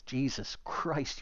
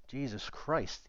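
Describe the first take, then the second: First: Slow drawn-out sigh of disbelief; exasperated. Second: Slow, softer disbelieving groan; exasperated. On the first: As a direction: stretch it out in disbelief. Oliver exasperated. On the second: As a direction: drag it out in annoyance. Cam exasperated. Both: Acted.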